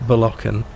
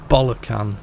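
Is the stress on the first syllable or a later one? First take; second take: later; first. First: The stress does not fall on the first syllable. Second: The stress falls heavily on the first syllable. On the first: The name is said the way it is meant. "it's probably pronounced Bolocan" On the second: The name is made to sound like a rude word. "You have to put the emphasis on the bollock part of that name"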